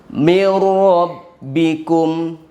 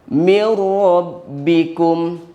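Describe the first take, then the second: Both takes have the same delivery.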